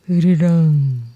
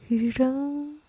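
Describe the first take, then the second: First: It is roared loudly and forcefully. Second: It is said softly in a thin voice. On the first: "보텀은 힘껏 으르렁거리며 소리쳤습니다" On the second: "가느다란 목소리로 말했습니다. 그럼 막 태어난 아기 꾀꼬리처럼 부드럽게 으르렁거릴게"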